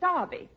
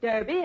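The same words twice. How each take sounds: First: It is said with a British accent. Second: It is said with an American accent.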